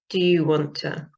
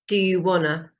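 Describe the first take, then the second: First: Want to is said fully as two words. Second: Want to is blended into one word.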